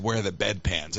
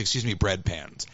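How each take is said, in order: First: "bed pans" said where bread is meant; slip of the tongue. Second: "bread pans" with the r clearly in, putting it right; self-correction. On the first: Host retelling asking a shop clerk for "bed pans" by mistake. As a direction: ask for "bed pans" plainly, the slip unnoticed. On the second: Host retelling correcting himself to the clerk, saying "bread pans". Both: Retold or imitated. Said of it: "accidentally called bed pans".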